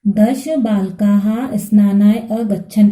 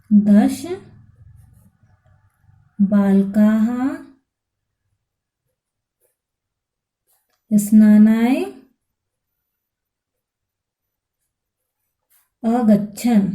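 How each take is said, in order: First: दश बालकाः स्नानाय अगच्छन् read through in one slow, even phrase; read as one sentence. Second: दश बालकाः स्नानाय अगच्छन् dictated one word at a time with long pauses. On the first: Teacher reading the full answer back to students, slow and whole. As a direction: join the words into one clear sentence. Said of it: "तो हम क्या लिखेंगे". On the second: Teacher dictating the answer to students, word by word. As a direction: give each word alone, slowly, so students can write it down. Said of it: "तो हम क्या लिखेंगे, हम लिखेंगे". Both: Shown as a demonstration.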